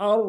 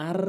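First: "আর" with heavy, rounded r; rounded full ra. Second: "আর" with a thin, light r. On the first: Teacher correcting learners, "আর" with full heavy ra. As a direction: fill out "আর", mouth rounded. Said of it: "আর বলতে হবে". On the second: Teacher warning learners, "আর" with thin ra. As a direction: say "আর" with unrounded mouth. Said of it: "আর বলা যাবে না". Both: Shown as a demonstration.

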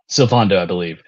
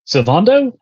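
First: Said in the usual way. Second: "Sylvando" rising high as a question. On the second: Real, not acted. Player trying to recall a game character's name, questioning. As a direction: say "Sylvando" unsurely, pitch climbing at the end.

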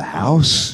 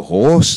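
First: HORSE turned into HOUSE with an OW; wrong vowel. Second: Said in the usual way. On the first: Shown as a demonstration. Teacher showing vowels gone wrong, wrong vowel. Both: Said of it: "if you get the vowels wrong".

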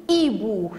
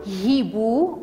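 First: "hibou" starting straight on the ee vowel; mute H. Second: "hibou" with an audible h at the front; sounded H. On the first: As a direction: say "hibou" as ee-boo, no h. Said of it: "on dit hibou". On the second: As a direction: say "hibou" wrongly as hhee-boo. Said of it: "On ne dit pas hibou". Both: Shown as a demonstration.

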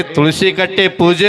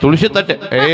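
First: ಕಟ್ಟೆ with a clear k, slowed down; slow correction. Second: ತಟ್ಟೆ with t in place of k; echoed mispronunciation. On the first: Shown as a demonstration. Director corrects the candidate, slow clear ಕಟ್ಟೆ. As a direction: spell out ಕಟ್ಟೆ ಪೂಜೆ slowly with k and p. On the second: Retold or imitated. Director repeats candidate's slip, lisped ತಟ್ಟೆ. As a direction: parrot her wrong word ತಟ್ಟೆ. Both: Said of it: "ತುಳಸಿ ಕಟ್ಟೆ ಪೂಜೆ ಅದ".

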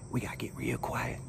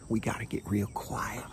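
First: Real quiet. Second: Soft, hushed stalking aside; getting quiet. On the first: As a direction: lower and much softer hush. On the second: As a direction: voice dropped to a near hush. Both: Real, not acted.

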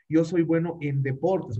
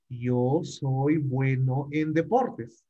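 First: Said in the usual way. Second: Slow, clear repeat. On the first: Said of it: "teacher translating first". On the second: Shown as a demonstration. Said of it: "teacher repeating slowly for clarity".

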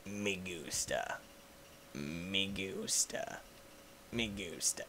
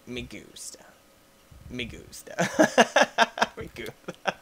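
First: Deep, slow, soft murmur; low quiet meme voice. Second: Breathy whispered me gusta; whispered meme. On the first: Meme phrase repeated. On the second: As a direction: whisper it low. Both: Acted.

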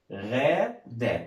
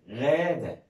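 First: غادة drawn out very slowly as غا, then دة; syllable by syllable. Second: Said in the usual way. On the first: Shown as a demonstration. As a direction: sound out غادة with a long first syllable. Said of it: "هننطقها نستهجها واحدة واحدة". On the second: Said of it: "اسم بنت".

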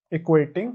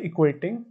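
The two takes are said the same way.

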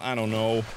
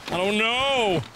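First: Said in the usual way. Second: Raised, drawn-out repeat; exasperated exclamation. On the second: Real, not acted. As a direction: throw it out in mild exasperation. Exclaimed repeat of same words.

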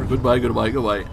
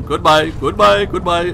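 First: Said in the usual way. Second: High, loud, slow drawn-out goodbyes; loud sing-song goodbye. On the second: Pretend. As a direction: sing the goodbyes out big as you flee.

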